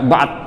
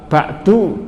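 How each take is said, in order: First: The word ends abruptly on the d consonant. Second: The word ends with a final u vowel. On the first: "ba'du dibaca ba'd" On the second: "ba'du dibaca ba'd"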